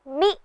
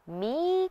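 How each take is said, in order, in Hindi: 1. स्वर छोटा है। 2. स्वर लंबा है। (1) "म में छोटी ई की मात्रा लगने से इसका उच्चारण मी होगा" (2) "यदि आप इसे मी कहेंगे तो वह गलत होगा"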